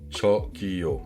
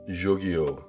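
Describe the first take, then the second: First: It begins with a ch sound as in ciao. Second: It begins with a soft, French-style j sound. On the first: The speaker calls it right. "c'est un peu comme l'italien ciao, le T C H" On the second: The speaker calls it wrong. "vous allez plutôt dire genre"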